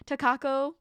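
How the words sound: The name is said with English-style sounds. "how my brain would pronounce it"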